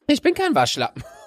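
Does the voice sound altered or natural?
altered. The voice sounds altered, unlike his usual voice.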